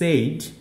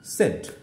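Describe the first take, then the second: First: The vowel glides like a diphthong 'ay'. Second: The vowel is a plain short 'e'. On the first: The speaker calls it wrong. "আমরা বলে থাকি সেইড" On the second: The speaker calls it right. "কিন্তু আসলে উচ্চারণ হবে হচ্ছে সেড"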